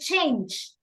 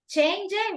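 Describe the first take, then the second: First: The word ends on the consonant, without a vowel. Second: An extra vowel is sounded after the final consonant. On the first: The speaker calls it right. "we say change" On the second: The speaker calls it wrong. "we don't say change it"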